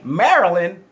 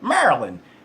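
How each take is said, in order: First: Said in a general American accent. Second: Said in a heavy local Baltimore accent. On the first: This is how outsiders say it. "You say" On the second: This is how locals say it. "they say"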